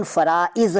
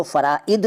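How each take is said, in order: First: Said in the usual way. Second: फ़राइद ending on d. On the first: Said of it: "फ़राइद नहीं कहते". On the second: Shown as a demonstration. Teacher showing the rejected plural, फ़राइद with d for z. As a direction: close फ़राइद with d, not z. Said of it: "नहीं कहते".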